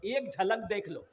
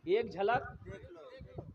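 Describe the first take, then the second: First: Said in the usual way. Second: झलक stretched out slowly and softly; slow drawn-out repeat. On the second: Shown as a demonstration. Preacher repeating to the crowd, slow and drawn out on झलक. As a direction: linger on झलक, drawing the word out slowly.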